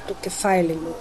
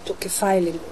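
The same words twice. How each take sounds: The two takes are said the same way.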